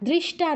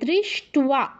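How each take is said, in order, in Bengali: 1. t-এর পরে কোনো v ধ্বনি নেই। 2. t-এর পরে v ধ্বনি আছে। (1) "দৃষ্টা নয়" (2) "উচ্চারণটা কি হবে? দৃষ্ট্বা"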